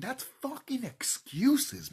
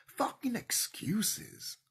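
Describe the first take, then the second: First: High, loud, dragged-out shout; slow angry yell. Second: Slow, breathy whisper after the shout; hissed whisper. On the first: Ranting at viewers, shouting slowly and loud. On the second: Repeating the rant to viewers in a whisper. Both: Real, not acted.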